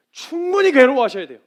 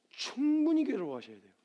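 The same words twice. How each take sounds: First: High, very loud preacher's insistence; forceful repetition. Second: Said in the usual way. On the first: Real, not acted. Preacher urging congregation to suffer over it, forceful. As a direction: drive it home at full voice.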